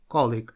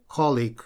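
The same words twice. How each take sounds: First: The stress is on the first syllable. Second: The stress is on the first syllable.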